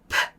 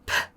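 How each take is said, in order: First: Only a faint vowel follows the consonant. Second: Only a faint vowel follows the consonant.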